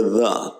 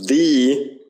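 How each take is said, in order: First: "the" as thuh; weak form. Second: "the" as thee; full vowel. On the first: Teacher showing what you hear, "the" as thuh. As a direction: say "the" with a schwa. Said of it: "You just hear the". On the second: Teacher showing what not to say, "the" as thee. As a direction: say "the" with a long ee. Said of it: "it's not pronounced the". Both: Shown as a demonstration.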